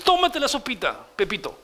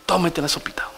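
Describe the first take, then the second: First: Lightly voiced teacher coaxing a child; a mild sing-song nudge to eat up. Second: Whispered coaxing. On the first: Sunday school teacher coaxing Pepito to eat, lightly mock. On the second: Retold or imitated. Teacher whispering to Pepito to eat the soup. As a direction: whisper "Tómate la sopita" gently. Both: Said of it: "así vamos a tener que enseñar".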